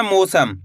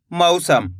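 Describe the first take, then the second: First: मौसम said "mo-sam", with a pure long o; o instead of au. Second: मौसम said "mau-sam", first vowel gliding like "ow". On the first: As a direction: flatten the first vowel of मौसम to a plain "o". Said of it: "ऐसे नहीं पढ़ना". (मौसम को "मोसम" की तरह, ओ की मात्रा से बोलें) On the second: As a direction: open मौसम with an a-to-u glide, not a pure o. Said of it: "इस तरीके से पढ़ना है". (मौसम में पहला स्वर "औ", यानी अ से उ की ओर बोलें) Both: Shown as a demonstration.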